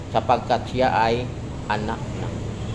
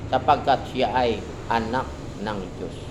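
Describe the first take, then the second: The two takes are said the same way.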